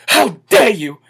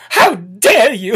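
First: Said in the usual way. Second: How dare you? dragged out slowly, dare held long; slow mock outrage. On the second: Shown as a demonstration. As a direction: stretch every word of How dare you? in mock indignation.

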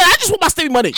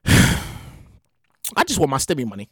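First: Said in the usual way. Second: Low, soft, slow sighing plea; weary plea. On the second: Acted. Sighing to himself about stimulus money, deflated slow plea. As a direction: drag it out, deflated and pleading.

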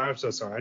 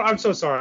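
First: Much softer, sheepish sorry; quiet. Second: Said in the usual way. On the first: Real, not acted. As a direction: drop to a quiet apology. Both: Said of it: "I need to redeem myself".

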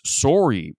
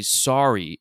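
First: "Sorry" with a rounded "sore-ee" vowel; Toronto-accent sorry. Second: Said in the usual way. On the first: Shown as a demonstration. Showing how Toronto people say "Sorry", as "sore-ee". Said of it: "when they say sorry, it's". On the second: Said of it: "So when they say sorry".

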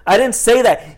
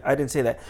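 First: Higher, louder retold protest; insistent denial. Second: Said in the usual way. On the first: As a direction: push back emphatically, reenacting the quarrel. Second denial in retold quarrel.

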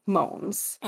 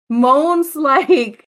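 First: Said in the usual way. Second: Saying moans through a laugh. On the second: Real, not acted.

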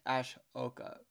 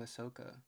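First: Ashoka said with a SH sound, ash-O-ka. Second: Ahsoka said with a plain S sound, ah-SO-ka. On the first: Second guess at a guy's name, Ashoka with SH. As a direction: say Ashoka with SH, not plain S. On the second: Reading out a guy's name, Ahsoka with a plain S. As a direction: say Ahsoka with S, not SH. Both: Shown as a demonstration. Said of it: "Or is it Ashoka?".

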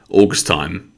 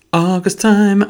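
First: Said in the usual way. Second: High-pitched, drawn-out playful echo. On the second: Pretend. Echoing own words about summer, playfully high. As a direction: lift it way up and hold it.

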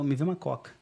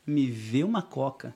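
First: Said in the usual way. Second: Slow, spelled-out "Me vê uma coca"; "Me vê uma coca" at a deliberate crawl; slow repeat. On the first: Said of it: "o cara fala". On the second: Shown as a demonstration. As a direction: draw out "Me vê uma coca" for scrutiny. Repeats phrase to highlight literal meaning.

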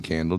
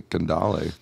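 First: Said in the usual way. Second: "candale" stretched into a fancy foreign-sounding word; playful mispronunciation. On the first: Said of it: "instead of saying candle". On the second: Shown as a demonstration. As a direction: say "candale" with a long, accented ending. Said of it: "saying certain words is, like, funner".

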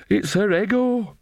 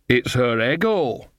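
First: High, slow, feeble protest; weak. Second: Slow, lightly voiced country witch; matter-of-fact Nanny Ogg. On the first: Nanny Ogg excusing Granny to Magrat, weakly. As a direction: offer it weakly, pitched well up. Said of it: "said Nanny Ogg weakly". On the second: Nanny Ogg explains Granny to Magrat, matter-of-fact. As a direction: state it steadily, at an everyday pitch. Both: A narrator's reading.

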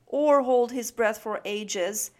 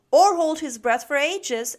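First: Loud but even-pitched echo; repeated complaint. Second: Loud, high, butting in; eager interjection. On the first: Snip echoing Max's addition to Mom, mildly exasperated. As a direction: take up the list, exasperated. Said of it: "cried Snip". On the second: Max adding to Snip's list, eagerly chiming in. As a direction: chime in forcefully. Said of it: "added Max". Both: A narrator's reading.

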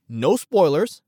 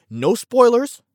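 First: Said in the usual way. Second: High, loud, eager insistence; excited promise. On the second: Real, not acted. Host reassuring listeners about Hawkeye, high and excited. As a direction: blurt it out with a jump in the voice.

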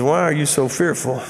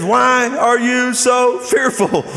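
First: Said in the usual way. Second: Slow, raised, pointed question; drawn-out, higher-pitched reproach; aggravated tone. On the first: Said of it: "He says". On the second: Acted. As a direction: space out the words with exasperation. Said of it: "I think we can see a little tone".

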